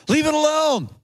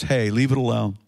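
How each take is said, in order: First: Man in the parable. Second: Low, restrained intervention; Jesus as advocate. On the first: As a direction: plead the case in a raised pitch. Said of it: "the man replied". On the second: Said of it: "the voice of Jesus, our advocate, says". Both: Acted.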